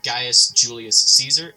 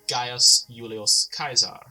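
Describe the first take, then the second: First: Caesar begins with a soft S sound. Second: Caesar begins with a hard K sound. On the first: "instead of" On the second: "I will be using classical pronunciation"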